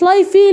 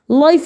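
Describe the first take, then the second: First: The word ends with an extra 'ee' vowel. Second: The word ends without any extra vowel. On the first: The speaker calls it wrong. "ما قلتليش لايفي لي" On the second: The speaker calls it right. "لايف لايف دي عندها"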